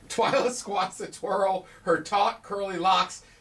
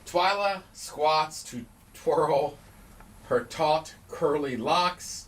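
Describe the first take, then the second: First: It is said quickly, rushing through the words. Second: It is said at a normal, careful speed.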